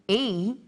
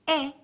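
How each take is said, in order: First: The vowel is a long sound. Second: The vowel is a short sound. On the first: "the long vowel sounds" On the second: "the short vowel sounds"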